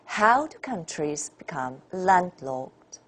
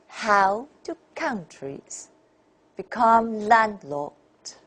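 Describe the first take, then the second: First: The stressed syllables sound natural and mild. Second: The stressed syllables are strongly exaggerated.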